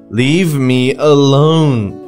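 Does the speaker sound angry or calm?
angry. It is said forcefully, sounding a little angry. "If you did it like I did, yes, it is"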